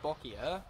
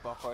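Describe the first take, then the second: First: The word ends with a 'kya' sound. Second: The word ends with a plain 'ka' sound. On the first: The speaker calls it right. "I say Bokia" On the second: The speaker calls it wrong. "I don't say Bokka"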